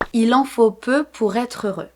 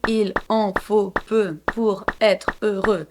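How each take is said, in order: First: The words run together without breaks. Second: The words are separated with small breaks. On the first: "I really pronounced everything together" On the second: "I didn't say"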